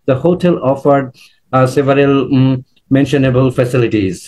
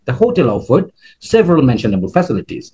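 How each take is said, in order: First: It is broken up by hesitation sounds. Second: It is said smoothly in two chunks. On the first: The speaker calls it wrong. "মানে দুইটা arm চলে আসছে এরকম।" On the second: The speaker calls it right. "আমি দুইটা চান করছি দেখেন।"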